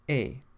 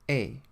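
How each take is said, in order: The two takes are said the same way.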